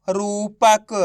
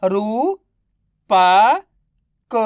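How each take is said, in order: First: रूपक in one breath, syllables run together; blended word. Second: Long pauses between रू, पा and क; syllable by syllable. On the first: (रूपक को मिलाकर एक शब्द में) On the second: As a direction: sound out रू, पा, क separately, each drawn out. (रू, पा, क को अलग-अलग खींचकर) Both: Shown as a demonstration. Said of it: "तो बताइए मिलके क्या बनेगा?".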